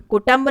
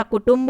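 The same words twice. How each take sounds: First: कुटुंब said as kutamb; an a before the m in कुटुंब; wrong form. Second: कुटुंब as kutumb; u in both syllables of कुटुंब; correct form. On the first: Teacher showing the mistake, कुटुंब pronounced ku-tamb. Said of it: "कुटुंब नहीं होता". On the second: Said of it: "कुटुंब होता है". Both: Shown as a demonstration.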